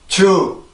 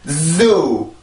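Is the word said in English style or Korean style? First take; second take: Korean style; English style. First: It is said flat, with a Korean-style j sound. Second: It is said stressed, with a strong buzzing z. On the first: The speaker calls it wrong. "한국어로 먼저 발음을 해보면 주" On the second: The speaker calls it right. "이게 정확한 발음입니다"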